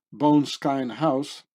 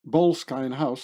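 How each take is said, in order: First: "Bone Skine house" said slowly as two words, BONE-SKINE; stumbling over "Bone Skine" before fixing it; wrong pronunciation. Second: "Boleskine" said as one word, BOLES-kine; "Boleskine house" fixed, run together smoothly; corrected pronunciation. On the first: Misreading the Scottish house name, slow two-part "Bone Skine". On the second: Correcting himself on the Scottish house name, "Boleskine" in one piece. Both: Real, not acted.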